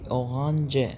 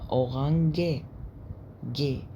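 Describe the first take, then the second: First: The ending is said with a soft English j sound. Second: The ending is read out with a hard g sound. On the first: The speaker calls it right. "هتنطق زي الإنجليزي أورانج" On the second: The speaker calls it wrong. "مفروض ننطقها أورانج جي"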